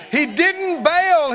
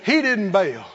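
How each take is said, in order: First: He didn't bail, slowly and high, hammered home; slow, high preached emphasis. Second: Said in the usual way. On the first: Shown as a demonstration. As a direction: lean on bail, louder, drawn out. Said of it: "and he didn't run". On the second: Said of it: "Jesus didn't run".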